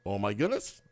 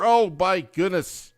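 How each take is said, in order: First: Hushed repeat. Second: Mock shock. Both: Real, not acted.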